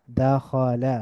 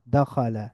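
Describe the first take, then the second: First: দাখালা slowly as da, kho, la; syllable by syllable. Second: দাখালা as one joined word, da-kho-la; blended together. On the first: Teacher breaking down the word, দাখালা syllable by syllable. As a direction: split দাখালা into three drawn-out syllables. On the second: Teacher reading joined-up, দাখালা blended into one word. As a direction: run দাখালা together with a fall. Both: Shown as a demonstration. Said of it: "একটু মিলিয়ে মিলিয়ে পড়ব".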